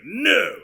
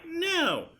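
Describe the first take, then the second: First: NO loud and punched, higher than normal speech; imitated forceful no. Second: Imitated high no. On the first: Editor compares two takes, loud emphatic no. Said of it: "this one, she's like". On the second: Editor compares two takes, high-pitched imitated no. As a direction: mimic a high, falling "No". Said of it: "the one from this take, she's like". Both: Shown as a demonstration.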